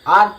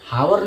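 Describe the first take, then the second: First: The word begins with a vowel sound. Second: The word begins with an h sound. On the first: The speaker calls it right. "आर पढ़ते हैं" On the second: The speaker calls it wrong. "इसको हम हावर नहीं पढ़ेंगे"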